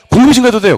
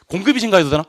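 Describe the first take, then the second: First: Loud, high "증가해도 돼요"; high, forceful teacher's answer; emphatic answer. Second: Said in the usual way. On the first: Shown as a demonstration. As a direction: belt out "돼요" as the firm answer. Teacher answers own question emphatically.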